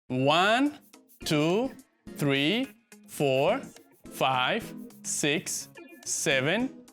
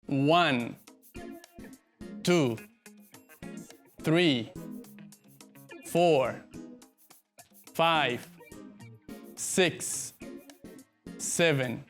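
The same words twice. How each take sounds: First: The numbers are counted at a faster pace. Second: The numbers are counted at a slower pace.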